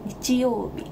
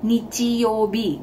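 First: Nichiyobi with rising and falling Japanese pitch. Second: Nichiyobi read flat and even like an Indonesian; Indonesian-style reading. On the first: Teacher modelling the correct Japanese pitch, sing-song. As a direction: let nichiyobi go up and down like a tune. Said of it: "Tapi sebetulnya bukan kayak gitu". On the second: Teacher showing the wrong Indonesian way, flat reading. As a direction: say nichiyobi flat, no Japanese pitch. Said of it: "kita orang Indonesia kan suka bacanya". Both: Shown as a demonstration.

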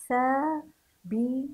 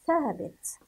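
First: ثابت split slowly into thaa, bi, tu; syllable-by-syllable reading. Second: Said in the usual way. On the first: Shown as a demonstration. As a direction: sound out ثابت in separate syllables. (تهجئة ثابت مقطعًا مقطعًا) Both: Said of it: "هيا بنا لنقرأ".

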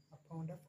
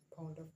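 Both takes have the same delivery.

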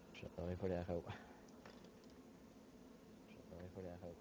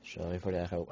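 First: Fading repeated echo; canyon echo. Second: Said in the usual way. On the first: Real, not acted. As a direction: voice bouncing back softer twice.

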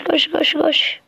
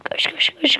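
First: Said in the usual way. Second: Hushed rapid run run; whispered urging. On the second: Real, not acted. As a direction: whisper it urgently under breath.

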